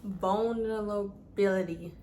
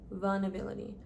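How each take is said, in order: First: Vulnerability sounded out slowly syllable by syllable; careful pronunciation. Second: Said in the usual way. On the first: Shown as a demonstration. Finally getting the hard word right for viewers, slow and deliberate. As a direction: spell out Vulnerability with your mouth, slowly. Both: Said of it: "I'm not saying this right".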